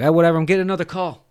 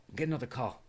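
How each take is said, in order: First: Loud, fast, higher dismissal; brusque brush-off. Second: Much softer, dropped away; offhand repeat. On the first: Cotton on the phone with an agent, dismissive. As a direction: rush them off the line. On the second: Cotton ending the agent's call, offhand. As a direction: toss it off under your breath. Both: Retold or imitated.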